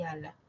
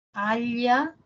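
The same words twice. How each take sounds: First: "ala" with a simple l, no y glide; "ala" with a clean alveolar l. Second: "Ala" drawn out as "alya", palatal lateral; "Ala" with the tongue on the palate, like "alya". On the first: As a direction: slowly show "ala" with tongue tip behind the teeth. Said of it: "la otra es alveolar". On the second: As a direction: slowly demonstrate "Ala" with l gliding into y. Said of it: "palatal y la otra es alveolar". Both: Shown as a demonstration.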